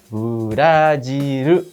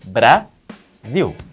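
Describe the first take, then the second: First: It is said with added vowels. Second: It is said without added vowels. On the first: This is how Japanese says it. "mas em japonês fica" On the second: This is how Portuguese says it. "A sílaba de Brasil em português é"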